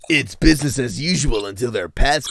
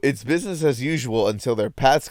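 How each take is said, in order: First: It is read in a dramatic movie-trailer announcer voice. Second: It is read in a plain, ordinary reading voice.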